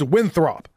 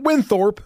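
First: The name is said as Winthrop. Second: The name is said as Winthorp. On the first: The speaker calls it right. "It's Winthrop" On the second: The speaker calls it wrong. "It's not Winthorp, as a lot of people pronounce it"

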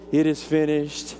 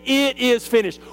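First: The phrase is said softly and weakly. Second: The phrase is said loudly and clearly. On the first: It sounds like a weak, defeated whimper. The speaker calls it wrong. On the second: It sounds like a triumphant declaration of completion. The speaker calls it right.

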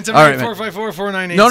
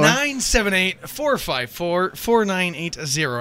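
First: The number is said at a quick pace. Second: The number is said at a slow pace.

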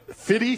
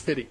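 First: The word is said with a full f sound. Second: The word is said with the f sound dropped. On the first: The speaker calls it wrong. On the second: The speaker calls it right.

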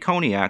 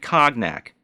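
First: The word is said the usual, smooth way. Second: The word is sounded out following its spelling. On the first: The speaker calls it right. "She didn't say cognac" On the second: The speaker calls it wrong. "she sounded it out like a 5-year-old would"

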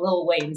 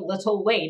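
First: The first word is reduced to one syllable. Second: The first word is said in full, two syllables. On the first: The speaker calls it wrong. "and not Lil Wayne" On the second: The speaker calls it right. "I'm one for enunciating"

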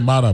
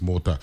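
First: The first vowel is an open 'ah' sound. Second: The first vowel is a rounded 'oh' sound. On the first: The speaker calls it wrong. "they'll say Mata, like, they know Jake LaMotta" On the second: The speaker calls it right. "but it's Mota"

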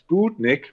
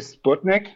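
First: The vowel in the first syllable is long. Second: The vowel in the first syllable is short. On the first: The speaker calls it right. "actually it's pronounced Sputnik, like with a long" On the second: The speaker calls it wrong. "usually I say Sputnik, like the German version"

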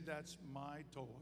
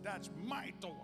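First: The word my is not emphasized. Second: The word my is strongly emphasized.

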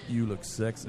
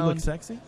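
First: It is said in a deliberately deeper voice. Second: It is said in an ordinary speaking voice.

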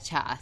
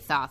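First: The name begins with a plain t sound. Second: The name begins with a lisping th sound. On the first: "I'd say that Toth" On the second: "It sounds like you're saying sauce with a terrible lisp"

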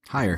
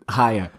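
First: It is said in a plain accent. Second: It is said in a Boston accent.

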